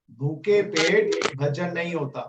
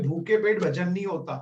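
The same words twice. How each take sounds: First: भूखे पेट भजन नहीं होता said slowly, leaning on भूखे; slow down and hit भूखे hard; slow emphatic repeat. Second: Said in the usual way. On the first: Shown as a demonstration.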